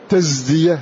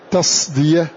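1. الحرف صوت زاي خالص. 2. الحرف صاد مفخمة خالصة. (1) "لا هذه زاي" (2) "لا نقول تصدية"

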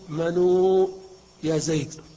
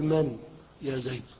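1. تليها واو المد. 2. النون ساكنة ولا يليها حرف. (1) "فلا تقول" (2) "إلا أن تسكن النون"

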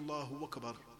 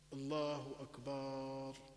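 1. تُسهَّل همزة أكبر. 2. تُمدّ الحركة الأخيرة في أكبر. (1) "يسهل الهمزة" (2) "الأكبار ما هو؟ هو الطبل"

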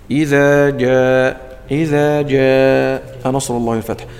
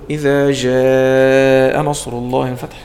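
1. الجيم صوت dj ثابت. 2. الجيم صوت zh ناعم. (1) "الجيم الصحيحة هي الوسط" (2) "هذا أقول له إيه شدد الجيم"

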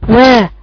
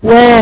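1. ينتهي المقطع بصوت h مسموع فيه نفَس. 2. ينتهي المقطع بوضوح دون خروج نفَس. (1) "كأن آخرها هاء" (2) "بس تقولي وا"

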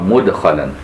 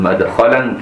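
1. أول حركة هي صوت 'u' مدوّر. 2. أول حركة هي صوت 'a' مفتوح. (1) "وباقي القراء مدخلا" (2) "بفتح الميم"

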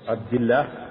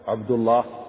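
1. اللام في «الله» مرققة ونحيفة. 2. اللام في «الله» مفخمة ومليئة. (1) "ترقى" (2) "تفخم"

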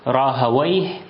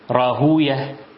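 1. ينتهي الاسم بصوت 'awayh'. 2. ينتهي الاسم بصوت 'ooyah' الطويل. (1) "أما أهل اللغة فيقولون" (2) "فأهل الحديث يقرؤونها كما ذكرتها لكم"

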